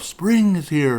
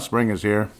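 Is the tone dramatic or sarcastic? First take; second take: dramatic; sarcastic. First: It is said in a dramatic tone. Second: It is said in a sarcastic tone. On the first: "like more dramatic" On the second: "I can imagine him being more sarcastic, like"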